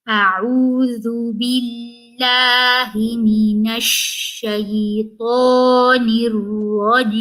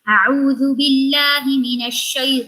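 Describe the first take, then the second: First: It is recited at a slow pace. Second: It is recited at a fast pace.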